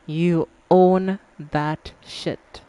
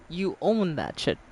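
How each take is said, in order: First: You own that shit, said slowly word by word with stress on own; slow emphatic. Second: Said in the usual way. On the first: Real, not acted. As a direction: lay each word down deliberately, leaning on own.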